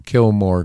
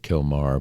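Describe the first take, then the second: First: The second syllable sounds like 'more'. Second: The second syllable sounds like 'mar'. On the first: This is the speaker's own deliberate version. "but I call him Kilmore Garcia" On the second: This is how others pronounce the name. "I guess they pronounce it Kilmar"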